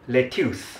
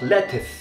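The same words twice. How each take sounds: First: It is said with a Singaporean accent. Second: It is said with a British accent. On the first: "そしてシンガポールではなんとlettuce です。" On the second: "In British"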